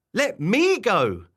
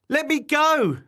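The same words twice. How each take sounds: First: Slow, loud copycat demand; raised, drawn-out creature voice; mimicking yell. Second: High, loud demand; high-pitched storybook outburst; indignant yell. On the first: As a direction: echo the yell, stretched out with weight on ME. Wobbler copies Barbara's demand back. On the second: Acted. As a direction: yell to be released. Barbara struggles against her wobbler.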